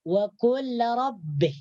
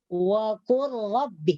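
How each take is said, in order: First: The l is pronounced clearly before the r. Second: The l is merged into the following r. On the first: The speaker calls it wrong. "Jangan sampai lam di sini dibaca dengan jelas" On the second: The speaker calls it right. "Jadi lamnya di sini dimasukkan ke dalam huruf ro"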